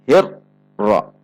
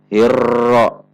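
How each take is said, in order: First: The r is cut off abruptly with a break. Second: The r is trilled too strongly and long. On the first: "dihentak membacanya seperti huruf syiddah" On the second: "Contoh yang getarannya terlalu banyak"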